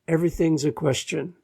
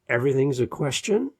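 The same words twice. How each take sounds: First: The pitch falls at the end like a statement. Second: The pitch rises at the end like a question. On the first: The speaker sounds sure of themselves. The speaker calls it right. "instead of" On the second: The speaker sounds unsure of themselves. The speaker calls it wrong. "it kind of sounds like everything's a question"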